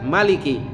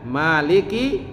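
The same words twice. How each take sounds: First: The first vowel is kept short. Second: The first vowel is held long. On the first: The king. "juga bisa dibaca" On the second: The one who owns or controls. "dipanjangkan matnya"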